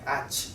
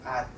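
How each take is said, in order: First: The final consonant is released with a burst. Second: The final consonant is stopped without release. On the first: The speaker calls it wrong. "we cannot pronounce it like ach" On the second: The speaker calls it right. "So just stop there like at"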